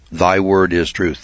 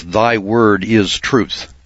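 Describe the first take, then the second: First: Said in the usual way. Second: Slow, weighty "Thy word is truth"; solemn scripture quote. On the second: Shown as a demonstration. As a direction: read "Thy word is truth" slowly, leaning on "word". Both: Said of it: "Now, the scripture tells us".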